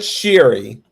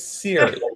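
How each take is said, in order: First: The name begins with a 'sh' sound. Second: The name begins with an 's' sound. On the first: The speaker calls it wrong. "it's not Sherry. ... why you kept on putting the H in" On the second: The speaker calls it right. "It's Siri"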